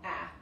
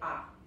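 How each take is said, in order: First: The vowel is a flatter, shorter a sound. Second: The vowel is a full, open Spanish a. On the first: The speaker calls it right. "Se pronuncia más como A" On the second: The speaker calls it wrong. "en vez de A"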